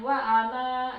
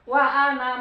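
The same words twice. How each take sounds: First: The final vowel of ana is held long. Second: The final vowel of ana is kept short. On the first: The reciter stops after this word. "kalau di wakaf dia dibaca panjang" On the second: The word is joined to the next word. "disambung diwasol jadi dibaca pendek"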